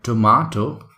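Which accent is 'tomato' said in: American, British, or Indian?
British. It is said in a British accent. "So this is called tomato in British accent"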